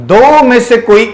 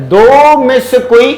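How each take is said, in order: The two takes are said the same way.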